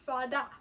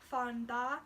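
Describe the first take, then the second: First: No N sound is heard before the D. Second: An N sound is heard before the D. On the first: "they're going to start to drop the N" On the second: "fan da is really hard to say fast"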